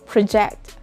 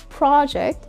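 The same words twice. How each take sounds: First: The stress is on the second syllable. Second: The stress is on the first syllable. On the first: It is a verb. "you put the stress on the second syllable if that is a verb" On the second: It is a noun. "you put the stress on the first syllable if that is a noun"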